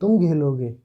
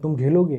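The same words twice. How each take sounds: First: It is said as a scornful exclamation. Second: It is said as a plain informing statement. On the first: It expresses surprise and contempt at someone playing. "विस्मयादि बोधक, यानी कि तिरस्कार के बोधक" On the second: It informs someone that they will play. "बताने की कि तुम खेलोगे"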